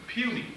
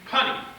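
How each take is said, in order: First: The first vowel is long, like in you. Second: The first vowel is short, like in funny. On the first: The speaker calls it right. "it dawned on me, P U N Y, puny" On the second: The speaker calls it wrong. "For years, I read it wrong, punny"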